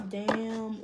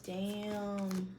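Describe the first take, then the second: First: Self-impressed damn. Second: Said in the usual way. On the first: Shown as a demonstration. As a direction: react impressed at own words. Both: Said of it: "Ooh, yeah, I said that".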